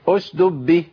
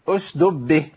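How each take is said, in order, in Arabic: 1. يُسقط أحد الدالين. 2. يُسقط أحد الدالين.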